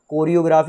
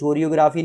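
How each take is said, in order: First: The word begins with a 'k' sound. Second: The word begins with a 'ch' sound. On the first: The speaker calls it right. "कोरियोग्राफी होता है" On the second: The speaker calls it wrong. "चोरियोग्राफी नहीं होता"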